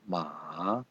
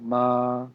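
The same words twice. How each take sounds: First: It is said with the third tone. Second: It is said with the first tone. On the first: "Third one" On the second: "First one"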